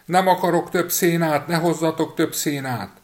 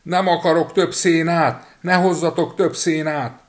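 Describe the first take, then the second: First: High, loud shouting; boy yelling from the cow's belly; yelling again. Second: High, loud and slow shouting; boy yelling from the cow's belly; yelling at the top of his lungs. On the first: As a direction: shout it at the pastor. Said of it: "ismét kiabálni kezdett". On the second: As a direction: scream it from inside the cow. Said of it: "torka szakadtából kiabálni kezdett". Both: A narrator's reading.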